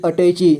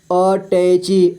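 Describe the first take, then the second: First: Said in the usual way. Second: attache slowly as अ, टै, ची; syllable by syllable. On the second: Shown as a demonstration. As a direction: draw out each syllable of अटैची. (अटैची को तोड़कर: अ, टै, ची) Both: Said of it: "तो ट का क्या साउंड आएगा".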